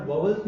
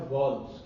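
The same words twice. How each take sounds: First: "वॉवेल्स" said as vaw-vuls, two syllables; wrong pronunciation. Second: "वॉल्स" said as one syllable, like walls; corrected pronunciation. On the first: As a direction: put a second v inside "वॉवेल्स". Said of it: "उच्चारण वॉवेल्स नहीं होता". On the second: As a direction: drop the middle v, just "वॉल्स", vawls. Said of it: "इसका उच्चारण होता है वॉल्स". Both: Shown as a demonstration.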